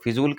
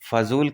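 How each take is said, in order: First: The first vowel is an 'i' sound. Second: The first vowel is an 'a' sound. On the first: The speaker calls it wrong. "फिजूल की नहीं" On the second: The speaker calls it right. "फजूल की बातें मत करो"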